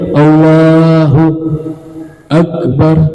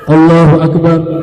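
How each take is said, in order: First: There is a gap between Allahu and Akbar. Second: Allahu and Akbar run together without a gap. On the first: The speaker calls it wrong. "gak boleh ada spasi, gak boleh" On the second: The speaker calls it right.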